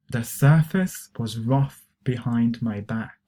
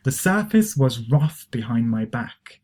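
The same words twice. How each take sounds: First: Slow repeat-after-me sentence; slow teacher's demonstration; slow model reading. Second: Said in the usual way. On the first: Shown as a demonstration. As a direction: say it slowly, phrase by phrase, for learners. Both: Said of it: "try to pronounce these expressions".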